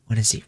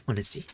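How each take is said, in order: First: Said in the usual way. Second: "Wanna see?" dropped to a soft, much quieter tease; softer teasing repeat. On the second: Real, not acted. Streamer teasing chat about her Monster Energy, softly. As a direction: whisper "Wanna see?" like a little secret. Offers to show drink twice.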